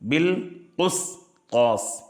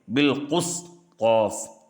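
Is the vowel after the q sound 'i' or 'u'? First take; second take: u; u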